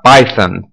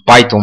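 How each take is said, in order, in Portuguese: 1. O som consonantal do meio é o 'th' do inglês. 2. O som consonantal do meio é um 't' simples. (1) "tem esse T H aqui, então a gente teria que pronunciar Python" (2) "tipicamente no Brasil a gente fala isso Python mesmo"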